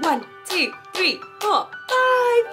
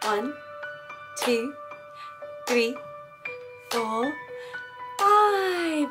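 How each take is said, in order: First: The counting is at the fastest pace. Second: The counting is at a slow pace.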